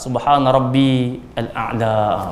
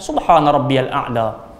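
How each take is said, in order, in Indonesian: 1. Rabbi berdiri sendiri, diikuti al-a'la penuh. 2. Rabbi tersambung dengan lancar ke a'la menjadi rabbiyal. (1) "kalau dia tak nak sambung, patut dia bunyi rabbi al-a'la" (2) "yang lebih baik sambung ajalah"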